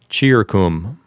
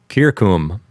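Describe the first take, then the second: First: The word begins with a ch sound. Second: The word begins with a hard k sound.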